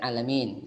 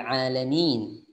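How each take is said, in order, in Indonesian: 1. Vokal terakhirnya condong ke bunyi e. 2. Vokal terakhirnya adalah i yang jelas dan melebar. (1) "bukan alamin, gitu ya. Itu kadang-kadang ada e sedikit" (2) "kasrah berbunyi i, bukan e"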